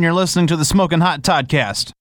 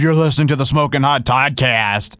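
First: It is said in a plain, natural way. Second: It is said in a laid-back, cool-guy way. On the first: The speaker calls it right. "Say it like you would say" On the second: The speaker calls it wrong. "Don't say it some way cool, like, dude"

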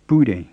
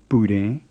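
First: The pitch starts high and falls low. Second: The pitch stays low throughout. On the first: To be stuck together. The speaker calls it wrong. "and not Bude" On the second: To be hot. The speaker calls it right. "You need to make it go low, low and not high, low"

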